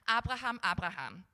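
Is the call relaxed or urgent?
relaxed. The name is called in a calm, relaxed way.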